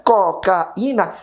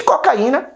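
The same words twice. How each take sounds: First: Cocaína drawn out very slowly as co-ca-í-na; cocaína said slowly with a and í kept apart; slow syllable split. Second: Said in the usual way. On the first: Shown as a demonstration. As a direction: separate cocaína syllable by syllable to show the hiatus. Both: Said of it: "percebe que eu tenho a presença do hiato".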